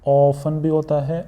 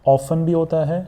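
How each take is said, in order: The two takes are said the same way.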